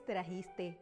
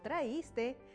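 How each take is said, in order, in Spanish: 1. La palabra tiene un sonido j similar a h. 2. La palabra no tiene un sonido j similar a h. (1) "El término correcto es trajiste" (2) "no traíste"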